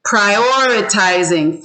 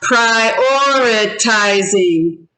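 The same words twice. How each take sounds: First: Said in the usual way. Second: "prioritizing" slowly in five separate beats; syllable by syllable. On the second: Shown as a demonstration. Teacher confirms five syllables to class, "prioritizing" syllable by syllable. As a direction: count out "prioritizing" as pri-or-i-ti-zing. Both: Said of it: "Five syllables".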